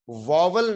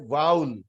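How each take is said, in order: First: واول said VOV-ul, with a middle v; wrong pronunciation. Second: واول said as one gliding "vowl", no middle v; correct pronunciation. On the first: Teacher correcting what schools teach, mispronounced as VOV-ul. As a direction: say واول as two syllables, "vo-vul". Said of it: "اس کا pronunciation واول نہیں ہے". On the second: Teacher giving students the correct form, pronounced VOWL. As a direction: say واول like "owl" with v in front. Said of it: "تو اس کا pronunciation ہے". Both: Shown as a demonstration.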